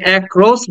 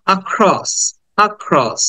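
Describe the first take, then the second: First: "অ্যাক্রস" opening with a wide "ae"; "অ্যাক্রস" with a full "ae" vowel first; common mispronunciation. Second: "অ্যাক্রস" as "uh-KROSS", stress on the second syllable; "অ্যাক্রস" starting on a short "uh", not "ae"; short schwa opening. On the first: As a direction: say "অ্যাক্রস" the wrong way, as "AEK-ros". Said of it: "আমরা এটাকে অ্যাক্রস বলতাম". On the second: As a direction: model "অ্যাক্রস" with a brief "আ" before a stressed "kross". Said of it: "অ্যাক্রস না বলে বলবো". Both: Shown as a demonstration.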